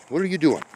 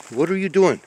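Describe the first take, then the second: First: Much higher, puzzled ask to the cat; mock scolding a pet. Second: Firmer mock scold. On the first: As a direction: tease the cat, pitched way up. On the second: Scolding a cat again. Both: Real, not acted.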